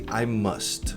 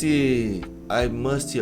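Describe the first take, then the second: First: The word ends cleanly on the 't' sound. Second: The word ends with an added 'ee' vowel. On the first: The speaker calls it right. "ao invés de" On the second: The speaker calls it wrong. "colocar som de i em palavras que não terminam com y"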